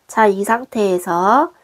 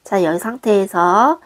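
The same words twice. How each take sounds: The two takes are said the same way.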